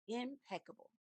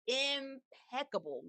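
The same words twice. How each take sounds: First: Said in the usual way. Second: "Impeccable" slow, drawn out and savored; savored emphasis. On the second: Shown as a demonstration. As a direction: stretch "Impeccable" out, relishing it.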